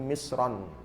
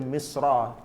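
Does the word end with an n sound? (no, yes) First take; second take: yes; no. First: The word ends with an added n sound. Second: The word ends in a vowel, no n. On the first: "Misran, tanwin" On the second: "baca Misra tanpa tanwin"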